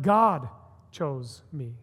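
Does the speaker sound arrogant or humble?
humble. It is said in a humble, amazed tone. The speaker feels unworthy of being chosen. The speaker calls it right. "I'm totally unworthy, totally undeserving of this"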